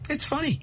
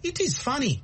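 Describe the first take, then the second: First: It is said as one contracted word. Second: It is said as two separate full words. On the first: The speaker calls it right. "Because Americans say, it's cool, it's funny" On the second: The speaker sounds like a non-native. The speaker calls it wrong. "if you say, oh, it is funny, they know you're not American"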